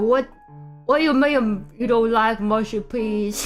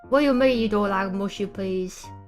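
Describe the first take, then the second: First: It is said in a Southern American accent. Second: It is said in a British accent.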